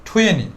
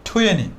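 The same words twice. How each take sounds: No difference in how they are said.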